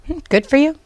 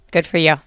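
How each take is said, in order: First: High, sing-song mock praise; a dry, unimpressed Hmm, then sarcastic praise; sarcastic good for you. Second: Said in the usual way. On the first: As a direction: say it with a skeptical eye-roll. Mocking the husband's claim.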